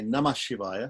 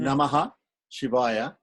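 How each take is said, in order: First: No extra syllable; it runs straight into 'Shivaya'. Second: A full extra 'ha' syllable follows 'Nama'. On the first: The words flow together without a break. The speaker calls it right. "they say Namah Shivaya" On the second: The words are broken apart completely. The speaker calls it wrong. "People don't say Namaha Shivaya"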